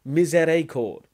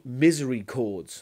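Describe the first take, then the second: First: It is said with French sounds, 'mee-zay-ree-kord'. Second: It is said like English 'misery chords'. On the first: The speaker calls it right. "which is the French word for mercy" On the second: The speaker calls it wrong. "as you pronounce it"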